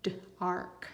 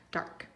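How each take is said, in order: First: "d-ark" split after the d; sounded out. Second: Said in the usual way. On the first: Shown as a demonstration. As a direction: sound out "d-ark": d, short gap, then ark. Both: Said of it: "read your word or your first syllable".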